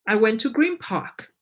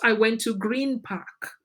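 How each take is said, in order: First: Green Park is linked and reduced in connected speech. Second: Each sound in Green Park is said fully and separately. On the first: The speaker calls it right. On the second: The speaker calls it wrong.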